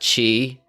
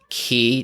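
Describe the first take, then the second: First: The syllable starts with a ch sound. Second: The syllable starts with a hard k sound. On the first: The speaker calls it wrong. "not Chi" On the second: The speaker calls it right. "pronounced Key"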